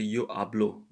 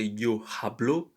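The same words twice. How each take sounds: First: The h at the start of hablo is silent. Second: The h at the start of hablo is sounded. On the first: The speaker calls it right. "The H, once again, is silent" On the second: The speaker calls it wrong. "We don't say yo hablo"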